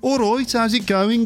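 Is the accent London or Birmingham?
Birmingham. It is said in a Birmingham accent.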